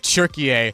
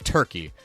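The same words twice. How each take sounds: First: It is said the Turkish way, 'Türkiye'. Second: It is said the English way, 'Turkey'. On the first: This is the country's new official name. The speaker calls it right. "I want to make sure that I say Turkey" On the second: This is the old name the speaker is used to. The speaker calls it wrong. "instead of Turkey because I've been saying it for so long"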